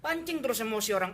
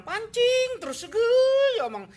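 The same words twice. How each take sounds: First: Said in the usual way. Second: High, slow, straining indignation on pancing terus; mock outrage. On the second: (pancing terus dibentak tinggi dan lambat)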